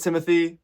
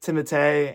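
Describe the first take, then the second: First: "Timothy" with an English th and ending in -ee; "Timothy", TIM-uh-thee; everyday English pronunciation. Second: "Timothée" with a t sound, ending in -ay; "Timothée" with hard t, no English th; French-style name pronunciation. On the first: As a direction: say "Timothy" as the common English name. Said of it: "is it Timothée or it's Timothy". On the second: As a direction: say "Timothée" as tim-uh-TAY. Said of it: "an interview said Timothée". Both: Shown as a demonstration.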